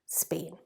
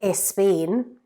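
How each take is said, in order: First: The word starts directly with the S sound. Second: An extra vowel sound comes before the S. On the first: The speaker calls it right. "we need to get rid of that E, Spain" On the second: The speaker calls it wrong. "we need to get rid of that E"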